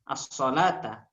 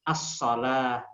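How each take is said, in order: First: The word ends with a t and vowel. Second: The word ends with a soft h sound. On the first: The word is said running on. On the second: The word is said at a stop.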